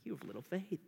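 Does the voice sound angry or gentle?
gentle. It is said softly, with warm compassion. The speaker is correcting out of love. The speaker calls it right. "rather than like this"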